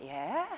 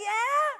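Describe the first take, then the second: First: Small, tentative rising yeah; child agreeing. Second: High, loud, excited yeah; child fired up. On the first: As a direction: imitate a kid starting to get drawn in. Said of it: "He was like". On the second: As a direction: imitate a kid shouting agreement at full pitch. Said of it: "he's like". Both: Retold or imitated.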